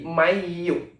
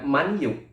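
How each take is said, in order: First: The n merges into the following y sound. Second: The n is pronounced clearly before the y. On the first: The speaker calls it right. "Nunnya tidak jelas atau langsung ke huruf berikutnya" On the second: The speaker calls it wrong. "bukan manyu"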